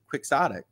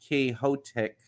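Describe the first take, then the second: First: It is said with the English pronunciation. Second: It is said with the Spanish pronunciation. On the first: The speaker calls it right. "we pronounce it quixotic" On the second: The speaker calls it wrong. "It's not Quixotic"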